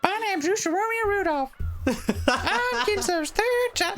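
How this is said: It is said in a deliberately annoying voice.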